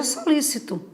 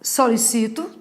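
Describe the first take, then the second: First: "solícito" stressed on LÍ; so-LÍ-ci-to, with the last two syllables falling away; stress on the second syllable. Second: "Solicito" stressed on CI; so-li-CI-to, with the weight on the next-to-last syllable; stress on the third syllable. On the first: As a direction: hit the LÍ in "solícito", higher. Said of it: "tem uma palavra pró-paroxítona". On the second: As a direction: say "Solicito" as the verb, leaning on the CI. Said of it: "que é o verbo". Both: Shown as a demonstration.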